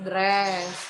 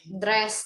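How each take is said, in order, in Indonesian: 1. Vokalnya panjang. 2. Vokalnya pendek. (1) "not dress" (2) "Kalau short vowel itu benar-benar nggak panjang"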